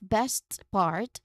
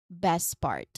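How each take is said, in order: First: The T at the end of 'best' is pronounced. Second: The T at the end of 'best' is dropped. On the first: "instead of best part" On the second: "we say it best part. So we often dropped um, the T"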